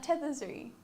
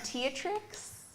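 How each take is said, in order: First: The name is said as Tetherzuri. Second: The name is said as Teatrix. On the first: This is the owner's own pronunciation. "Is how I pronounce it" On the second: This is how other people say it. "I've had Teatrix"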